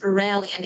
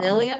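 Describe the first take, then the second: First: The name is said with an American accent. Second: The name is said with a French accent.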